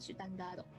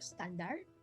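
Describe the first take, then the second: First: It is said the Japanese way, with added vowels. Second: It is said the English way, no added vowels.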